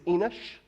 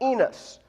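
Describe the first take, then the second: First: The name ends with an sh sound. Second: The name ends with a plain s sound. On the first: This follows the original Hebrew more closely. The speaker calls it right. "It really is Enosh" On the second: This follows an older English translation. The speaker calls it wrong. "that's how you pronounce it if you have the King James Version"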